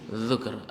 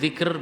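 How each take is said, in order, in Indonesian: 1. Vokal pertama adalah bunyi u. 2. Vokal pertama adalah bunyi i. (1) "bisa menggunakan dhammah menjadi dzukr" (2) "bisa menggunakan kasrah menjadi dzikr"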